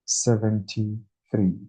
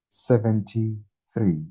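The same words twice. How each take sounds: The two takes are said the same way.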